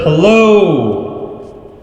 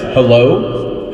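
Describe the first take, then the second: First: The voice has a spacious, echoing reverb. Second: The voice sounds thin like a radio. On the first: "which is an ambient reverb" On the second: "the radio voice effect"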